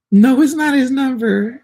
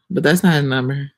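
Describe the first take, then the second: First: Much higher, louder and slow mocking squeal; mock squeak. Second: Said in the usual way. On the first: Teasing commenter who posted the number, high mock squeal. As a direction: stretch it high like teasing a fool.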